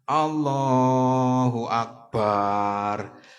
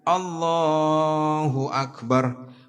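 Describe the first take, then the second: First: The syllable 'bar' is drawn out long. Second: The syllable 'bar' is kept short. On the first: The speaker calls it wrong. "Baknya dibaca pan panjang, malah berdosa" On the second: The speaker calls it right. "Baknya jangan dibaca panjang"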